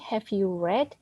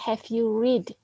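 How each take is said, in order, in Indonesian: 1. Kata read punya vokal e yang pendek. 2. Kata read punya vokal ee yang panjang. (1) "jadi bacanya read" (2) "Jangan dibaca have you read, ya salah"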